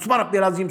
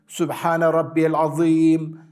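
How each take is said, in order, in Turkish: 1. Bu ifade hızlıca, aceleyle söylenir. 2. Bu ifade yavaş ve sakin bir şekilde söylenir. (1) "böyle hızlı hızlı değil" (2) "böyle sakin bir şekilde"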